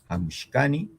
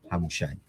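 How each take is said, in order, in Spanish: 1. El sufijo se dice shka, con k. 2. El sufijo se dice sha, sin k. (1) "los hablantes de la variedad chanca lo leerán" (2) "usualmente leo en mi variedad"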